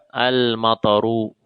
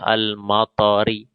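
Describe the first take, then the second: First: The word ends with a u vowel. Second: The word ends with an i vowel. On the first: The noun is the subject of the verb. The speaker calls it right. "harus dibaca al-mataru" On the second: The noun is in the genitive case. The speaker calls it wrong. "tidak boleh al-matari"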